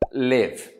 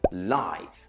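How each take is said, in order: First: It is said with the verb pronunciation. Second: It is said with the adjective pronunciation. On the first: It describes the action of living somewhere or somehow. "we pronounce the verb to live, live" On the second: It describes something happening in real time or alive. "if live is an adjective, we pronounce it live"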